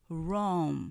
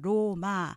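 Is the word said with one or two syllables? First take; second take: one; two. First: The word is said with one syllable. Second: The word is said with two syllables. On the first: The speaker calls it right. "실제로는 Rome 이렇게 발음되기 때문에" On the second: The speaker calls it wrong. "이렇게 이음절로 알고 계시지만"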